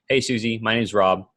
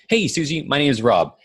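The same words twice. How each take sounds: First: It is read flatly, with little energy. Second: It is said warmly, with upbeat energy. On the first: The caller is just reading off a script. The speaker calls it wrong. "it just sounds boring" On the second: The caller sounds like a friendly acquaintance. The speaker calls it right. "you have enthusiasm, right, when you talk, and you make sure you're, hey, you know, you're upbeat"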